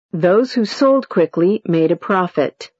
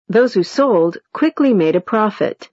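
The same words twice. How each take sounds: First: "sold" gets the main stress, falling after it. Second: "quickly" gets the main stress, falling after it. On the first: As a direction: hit the word "sold" and let the pitch fall. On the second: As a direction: hit the word "quickly" and let the pitch fall. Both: Shown as a demonstration. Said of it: "Intonation unit".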